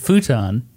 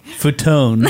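First: The word ends in a short 'tun' sound. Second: The word ends in a long 'tone' sound. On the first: This is the way the speaker says it now. The speaker calls it right. "You've changed the way you say it" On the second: This is how it is read by someone who has only seen it written. The speaker calls it wrong. "How did you pronounce that word when we first started dating?"

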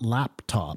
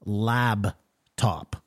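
First: The first syllable ends with a p sound. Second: The first syllable ends with a b sound. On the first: This is the usual way to say it. The speaker calls it right. "Not laptop" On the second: This is how the speaker said it for years. The speaker calls it wrong. "I said... Lab-top"

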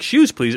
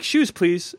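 First: It is said in a firm, insistent way. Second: It is said in a calm, plain way.

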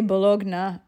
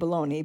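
First: The word ends with an Italian 'nya' sound. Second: The word ends with an English 'ee' sound. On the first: The speaker calls it right. "If you wanted to say Bologna, I suppose that would be even better" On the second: The speaker calls it wrong. "than saying bologna"

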